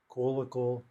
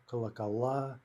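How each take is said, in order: First: Колокол with stress on the first о; stress on first syllable. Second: Колокола with stress on the final а; stress on last syllable. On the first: Teacher giving the singular, колокол stressed up front. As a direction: lean on the opening syllable of колокол. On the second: Teacher giving the plural, колокола stressed on the ending. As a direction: land on the end of колокола. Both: Shown as a demonstration. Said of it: "These are all in-stressed".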